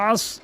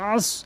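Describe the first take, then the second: No difference in how they are said.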